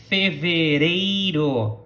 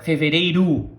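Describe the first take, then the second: First: "Fevereiro" slow with tapped Portuguese R; careful R's. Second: "fevereiro" with r's softened like a d; casual R. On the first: Teacher stresses the R sounds in fevereiro. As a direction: say "Fevereiro" slowly, tapping each r. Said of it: "attention to the pronunciation of the R's". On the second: Teacher shows the relaxed spoken fevereiro. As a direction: say "fevereiro" loosely, r's near d. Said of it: "It doesn't matter". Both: Shown as a demonstration.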